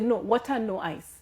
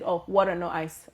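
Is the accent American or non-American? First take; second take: non-American; American. First: It is said in the speaker's home-country accent. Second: It is said in an American accent.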